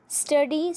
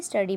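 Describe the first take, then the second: First: Rising, raised call of study; word called out. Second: Said in the usual way. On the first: Shown as a demonstration. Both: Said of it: "study मतलब पढ़ना".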